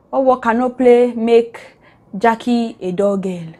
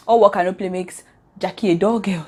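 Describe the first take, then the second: First: Playful recitation. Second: Said in the usual way. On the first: Real, not acted. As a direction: stretch out each word of the saying. Reciting her own improvised twisted proverb.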